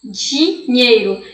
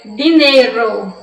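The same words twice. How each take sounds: First: "dinheiro" slow, with a "dji" sound as in Brazilian Portuguese. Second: "dinheiro" slow, as "dinero", with a clean D; Spanish D. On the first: Teacher shows the Portuguese "dinheiro" with the "dj" sound, to avoid. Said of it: "Um di com um chiado de D C H". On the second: Teacher models the Spanish word for her students. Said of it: "Um di com um chiado". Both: Shown as a demonstration.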